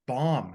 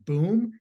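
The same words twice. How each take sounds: First: "bomb" said as bahm, plain correction; imitating Gallagher correcting to "bomb" like bahm; corrected reading. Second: "boom" said with a long oo, pitched higher; imitating Gallagher misreading bomb as "boom"; wrong reading. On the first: Gallagher's bit correcting the word, plain. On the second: Gallagher's bit misreading the flipped word, mock. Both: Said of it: "He goes, "No".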